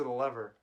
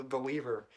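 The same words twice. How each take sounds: First: Said in the usual way. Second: Lever said as LEE-ver; long first vowel in lever; alternate pronunciation. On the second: Shown as a demonstration. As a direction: say lever with a long ee, rhyming with beaver. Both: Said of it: "It's lever".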